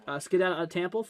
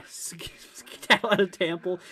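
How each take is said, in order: First: Said in the usual way. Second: Whispered through a laugh. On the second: Real, not acted. Rereads chat line, amused.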